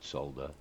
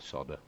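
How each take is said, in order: First: It is said with a British English pronunciation. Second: It is said with an American English pronunciation. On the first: This is how the speaker's own country says it. "I am English, so I'm afraid I can't apologise for using the word solder" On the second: This is how listeners in the States say it. "for anybody in the States"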